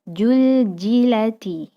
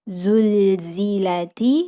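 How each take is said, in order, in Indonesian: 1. Bunyi z diganti dengan bunyi j. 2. Kata ini diucapkan dengan bunyi z.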